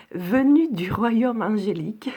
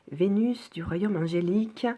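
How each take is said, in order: First: "venue" said carefully, breathy, correcting the slip; corrected reading. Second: Reads "Vénus" with a clear é, misreading the text; stumbles, reading "Vénus" instead of "venue"; misread word. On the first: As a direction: corrects herself, pronouncing "venue" properly. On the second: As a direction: says "Vénus" like the planet's name by mistake. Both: Real, not acted.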